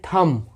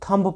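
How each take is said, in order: First: The b sound is silent. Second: The b sound is pronounced. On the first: The speaker calls it right. "बी silent है" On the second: The speaker calls it wrong. "गलत है"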